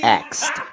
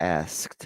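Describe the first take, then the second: First: The k sound comes before the s. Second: The s sound comes before the k. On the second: It is the standard form. "as opposed to asked"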